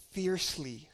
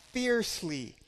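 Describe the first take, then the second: First: Said in the usual way. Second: Fiercely repeated higher with a falling push; stress on fiercely. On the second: Shown as a demonstration. Preacher repeats to his church, fiercely stressed higher. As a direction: lean hard into fiercely the second time.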